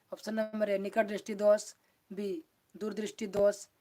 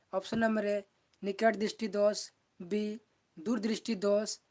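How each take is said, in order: The two takes are said the same way.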